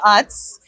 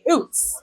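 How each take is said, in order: First: The name is said in the speaker's own way. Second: The name is said with an oo vowel. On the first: "So I say Utz" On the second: "people in other regions who say Oots"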